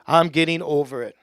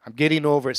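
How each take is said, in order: First: Firm declaration, meant in earnest; said like you mean it. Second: Said in the usual way. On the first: Shown as a demonstration. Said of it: "Say it like you mean it. Louder". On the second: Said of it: "Say it".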